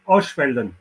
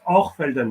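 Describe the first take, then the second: First: The middle consonant is said as a ch sound. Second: The middle consonant is said as an r sound. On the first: This follows how the name is spelled. "but it spells Oschfelden" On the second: This is how the local people say it. "they pronounce the C H as an R. So it's Orfelden"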